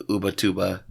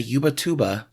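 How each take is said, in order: First: Ubatuba starting with an OO sound; spelling pronunciation. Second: Ubatuba starting with a YOO sound; likely wrong pronunciation. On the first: Reader working Ubatuba out from its spelling, sounded out. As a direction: say "OO-buh-TOO-buh" as spelled. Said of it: "it's spelled like Ubatuba". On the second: Reader stumbling on a Brazilian place name, anglicised pronunciation. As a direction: say "YOO-buh-TOO-buh" for Ubatuba. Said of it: "I'm sure it's not Ubatuba". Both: Shown as a demonstration.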